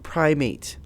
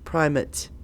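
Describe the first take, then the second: First: The final syllable does not sound like 'ut'. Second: The final syllable sounds almost like 'ut'. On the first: It means an ape. The speaker calls it wrong. "It looks like the word primate, like an ape. It is not pronounced that way" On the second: It names the church's leader. The speaker calls it right. "almost like U T"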